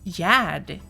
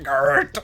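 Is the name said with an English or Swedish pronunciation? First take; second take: Swedish; English. First: The name is said the Swedish way. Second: The name is said the English way. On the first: The speaker calls it right. "No, no, no. It's Yad" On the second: The speaker calls it wrong. "if you would say it in English, it would probably be Gerd"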